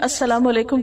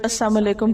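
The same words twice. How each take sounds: First: The 'l' sound in the first word is heard. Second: The 'l' sound in the first word is dropped. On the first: A greeting wishing peace. The speaker calls it right. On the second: A greeting wishing death. The speaker calls it wrong.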